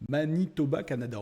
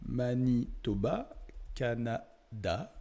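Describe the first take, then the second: First: Said in the usual way. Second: "Manitoba, Canada" drawn out very slowly, syllable by syllable; dictating while typing. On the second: Real, not acted. (« Manitoba, Canada » dicté lentement, syllabe par syllabe) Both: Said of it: "on va marquer".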